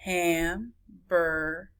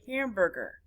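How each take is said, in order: First: Hamburger slowly split into ham, bur, ger; low, measured Hamburger with a gap between syllables. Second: Said in the usual way. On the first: Shown as a demonstration. Teacher counting syllables, Hamburger broken in three. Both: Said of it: "many syllables it is".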